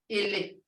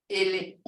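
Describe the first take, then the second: Both takes have the same delivery.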